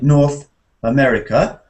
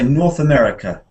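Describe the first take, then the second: First: There is a pause between the two words. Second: The two words run together without a pause. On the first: The speaker calls it wrong. "We mustn't stop in the middle of a noun phrase. ... we mustn't say" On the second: The speaker calls it right. "We must say"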